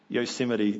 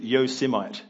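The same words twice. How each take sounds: First: The word is pronounced the usual way. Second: The word is pronounced in an odd way. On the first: The speaker calls it right. "I should just say, Yosemite" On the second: The speaker calls it wrong. "pronounced that word wrong. He said Yosemite, which sounds ridiculous"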